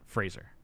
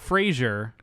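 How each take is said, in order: First: The name is said as 'Fraser'. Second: The name is said as 'Frasier'. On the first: The speaker calls it right. "It is pronounced Brendan Fraser" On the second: The speaker calls it wrong. "It's not Frasier"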